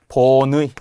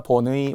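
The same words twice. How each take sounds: First: The second syllable has the ui vowel. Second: The second syllable has a plain i vowel. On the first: "원칙" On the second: "허용"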